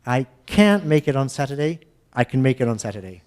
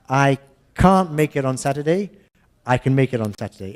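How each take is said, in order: First: American "can't" with the a of "cat", weak "can"; American can and can't contrast; American pronunciation demo; American English. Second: British English, "can't" as "cahnt", "can" reduced; English can and can't, broad ah in "can't"; English pronunciation demo. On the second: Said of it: "Let's do the English". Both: Shown as a demonstration.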